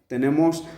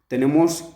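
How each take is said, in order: The two takes are said the same way.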